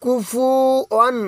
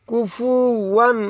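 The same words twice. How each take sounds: First: কুফুয়ান drawn out slowly and a little higher; slow recitation. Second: কুফুয়ান drawn out slowly, rising at the end; slow recitation. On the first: Teacher reciting the word slowly for learners. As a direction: ease through কুফুয়ান slowly. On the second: Teacher repeating the word slowly. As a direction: stretch কুফুয়ান gently. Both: Shown as a demonstration. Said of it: "উচ্চারণ দিয়ে পড়ব".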